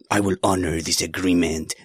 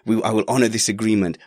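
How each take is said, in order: First: It is said with a German-sounding accent. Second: It is said without a German-sounding accent. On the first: The speaker calls it wrong. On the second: The speaker calls it right.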